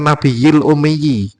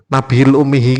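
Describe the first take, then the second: First: The last word ends with a 'yi' sound. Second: The last word ends with a 'hi' sound. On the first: The prophet who cannot read or write. The speaker calls it right. "Yang sebenarnya kan Nabiyil Umiyi" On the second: The prophet and his mother. The speaker calls it wrong. "Nabil Umihi opo?"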